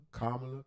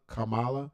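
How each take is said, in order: First: Kamala said KAH-ma-la, stress on the first syllable; one pronunciation. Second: Kamala said ka-MAH-la, stress on the middle syllable; other pronunciation. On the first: Streamer testing her name, Kamala as KAH-ma-la. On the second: Streamer testing her name, Kamala as ka-MAH-la. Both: Shown as a demonstration. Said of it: "not exactly sure if I'm saying it right".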